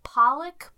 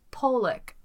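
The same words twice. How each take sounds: First: "Pollock" with an open "PAH", pitched up questioningly; trying a pronunciation. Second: "Pollock" with a long o, POH-lick, falling; alternative pronunciation. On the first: Host unsure of the family's surname, trying a pronunciation. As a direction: test "Pollock" as PAH-lick, rising. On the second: Host weighing another way to say the surname, alternative pronunciation. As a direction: offer "Pollock" as POLE-ick. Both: Shown as a demonstration. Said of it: "I don't wanna say".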